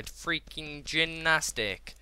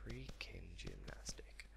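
First: Said in the usual way. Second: Slow, unvoiced hush; whisper. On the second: Real, not acted. Gamer savouring his gymnastic moves, slow whisper. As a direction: whisper it slowly to yourself.

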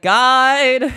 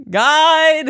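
First: Loud, high call for help; retold calling out. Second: Higher, louder second holler; retold calling out. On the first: Stranded climbers summoning the guide, calling out. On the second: Stranded climbers calling the guide, louder holler.

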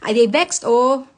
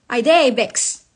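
First: Louder Nigerian Pidgin "I dey vexed", rising on "vexed". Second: Louder Nigerian Pidgin "I dey vexed", weight on "dey", falling. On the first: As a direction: declare it in Nigerian Pidgin, annoyed. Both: Real, not acted. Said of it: "As you can tell, I am pissed off".

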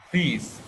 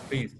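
First: "Please" with the long ee drawn out a little; teacher's model "Please", vowel lengthened. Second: "please" cut short, without the long ee; wrong short vowel. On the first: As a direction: hold the ee in "Please" slightly. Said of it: "tức là hơi nó ngân ra một chút". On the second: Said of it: "Không phải là đọc please". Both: Shown as a demonstration.

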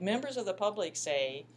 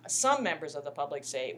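First: Said in the usual way. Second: "some" hit hard and louder; stress on SOME. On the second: Real, not acted. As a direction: punch the word "some" as a correction. Corrects herself, stressing some.

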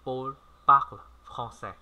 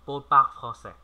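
First: Slow repeat. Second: Said in the usual way. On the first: Shown as a demonstration. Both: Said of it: "Chúng ta cùng nói lại nào".

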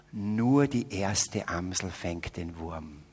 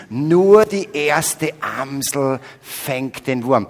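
First: Slow, low, savoring each word with a laugh; solemn proverb. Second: Slow, louder, proclaiming each word; proclaimed proverb. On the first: Preacher solemnly presents a Salzburg saying as a joke. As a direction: deliver it like a sacred saying. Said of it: "Dieses Wort heißt". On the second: Preacher repeats the saying louder and slowly for the audience. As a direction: announce it to the whole hall. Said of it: "Berührt euch das Wort so wie mich?". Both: Shown as a demonstration.

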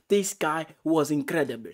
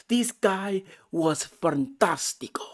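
First: Said in the usual way. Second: Slow, higher mock-Italian flourish; playful Latin accent, stretched out; Spanish or Italian accent. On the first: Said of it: "I don't know why I got into the Spanish or Italian accent". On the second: Real, not acted. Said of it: "got into the Spanish or Italian accent".

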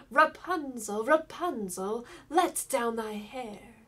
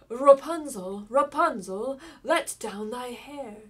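First: Enchantress calling up, louder and slow. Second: Prince shouting up the tower, loud and rising; loud call. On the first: Enchantress calls up to Rapunzel in the tower, slow louder call. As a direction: call the name up the tower, drawn out. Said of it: "she cried". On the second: King's son calls up to the tower, loud rising shout. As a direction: belt the name upward, then slow on the last line. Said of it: "he went to the tower and cried". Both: A narrator's reading.

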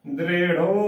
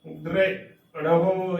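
First: ਦ੍ਰਿੜਹੁ squeezed to "drero", no h; wrong pronunciation. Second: ਦ੍ਰਿੜਹੁ slowly, broken into "dre ... ra-ho"; pronounced as written. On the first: Teacher saying what not to say, ਦ੍ਰਿੜਹੁ without its h. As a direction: end ਦ੍ਰਿੜਹੁ on a plain o. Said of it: "ਉਚਾਰਨ ਨਹੀਂ ਕਰਨਾ ਹੈ". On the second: Teacher demonstrating the written form, ਦ੍ਰਿੜਹੁ slowly with "ho". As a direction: draw out ਦ੍ਰਿੜਹੁ, sounding the final h. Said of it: "ਇਸ ਦਾ ਉਚਾਰਨ ਜਿਵੇਂ ਲਿਖਿਆ ਹੈ". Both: Shown as a demonstration.

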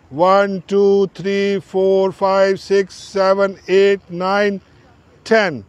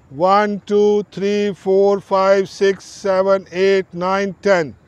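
Both takes have the same delivery.

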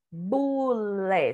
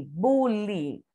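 First: BULÉ with an open final É; E as written. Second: BULE ending in an I sound, "BU-li"; natural Bule, last vowel like I. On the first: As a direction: sound out Bulé syllable by syllable, ending in É. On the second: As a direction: say Bule with final E as I. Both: Shown as a demonstration. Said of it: "Só que o E tem som de I".

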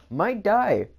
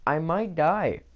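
First: Dramatic squeak. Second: Said in the usual way. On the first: Acted. Dramatic doom in a game.

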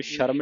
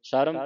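First: "ਸ਼ਰਮ" starting with a hushing sh; mistaken sh sound. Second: "ਸ਼ਰਮ" starting with s, as "saram"; plain s sound. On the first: Teacher shows students the misreading, "ਸ਼ਰਮ" with initial sh. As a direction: begin "ਸ਼ਰਮ" with sh. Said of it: "ਇਹਨੂੰ ਸ਼ਰਮ ਨਹੀਂ ਪੜ੍ਹਨਾ". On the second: Teacher models the correct reading, "ਸ਼ਰਮ" sounded as saram. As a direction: begin the word "ਸ਼ਰਮ" with s instead of sh. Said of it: "ਸ਼ਰਮ ਸੱਸੇ ਦੀ ਆਵਾਜ਼ ਕੱਢਣੀ ਹੈ". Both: Shown as a demonstration.

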